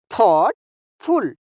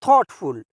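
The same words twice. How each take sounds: First: thoughtful slowly, with a pause before फुल; two separate beats in thoughtful; split into parts. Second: Said in the usual way. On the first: Shown as a demonstration. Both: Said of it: "टुकड़ा करके बोलेंगे".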